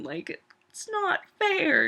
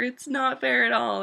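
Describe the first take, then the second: First: High, slow dragged-out complaint; whiny sad. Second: Said in the usual way. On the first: Real, not acted. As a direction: moan it, heartbroken about the show. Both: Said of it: "making this really sad".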